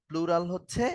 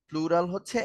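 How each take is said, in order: No difference in how they are said.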